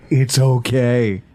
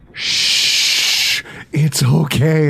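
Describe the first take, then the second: First: Drawn-out, lower mock reassurance; slow soothing. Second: Whispered shh into a soothing it's okay; mock hushing. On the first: Repeating it to his wife, slow mock soothing. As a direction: stretch it out to calm her down. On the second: To his wife over the Amazon bill, mock hushing. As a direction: hush her like calming a child.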